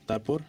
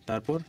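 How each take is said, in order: Both takes have the same delivery.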